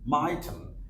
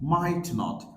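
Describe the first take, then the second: First: The words are squeezed into one contracted word. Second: Both words are said in full, separately.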